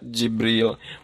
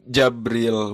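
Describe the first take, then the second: First: The first vowel is an i sound. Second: The first vowel is an a sound. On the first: "dikasokeun jimna dibaca Jibril" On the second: "dipatahkeun jimna dibaca Jabril"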